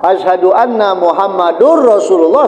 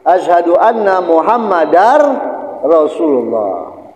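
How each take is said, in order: First: The vowel after Muhammad is u. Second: The vowel after Muhammad is a. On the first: The speaker calls it wrong. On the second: The speaker calls it right.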